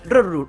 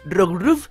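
First: The syllables are slurred together into a reduced form. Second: Both syllables are pronounced clearly and fully. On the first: The speaker calls it wrong. "en un momento en el que esté con la calma... tengo que decir Rorru" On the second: The speaker calls it right. "porque estoy muy concentrado y lo estoy diciendo bien"

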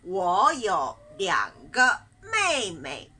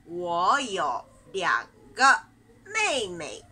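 No difference in how they are said.

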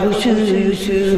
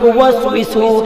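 First: The word is clipped to a repeated short syllable. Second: The word is said in full, all syllables. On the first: The speaker calls it wrong. "সাসা কই ইউসু ইউসু" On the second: The speaker calls it right. "আমি কই ওয়াসবিসু"

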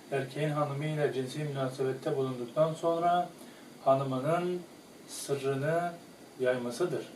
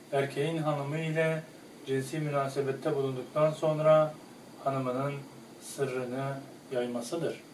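Both takes have the same delivery.

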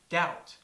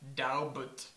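First: The word is said without a b sound. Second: The word is said with a b sound. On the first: The speaker calls it right. "a native speaker knows that doubt is pronounced doubt" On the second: The speaker calls it wrong. "not daubut"

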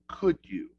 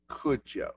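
First: The word 'you' is said in full. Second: The word 'you' is reduced to 'ya'.

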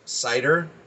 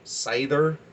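First: The middle consonant is a plain d sound. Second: The middle consonant is a th sound. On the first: "I have seen it pronounced cider" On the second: "I like the D as the TH in the pronunciation of it"

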